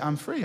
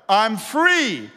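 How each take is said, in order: First: It is said at a normal, softer volume. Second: It is said at a louder volume.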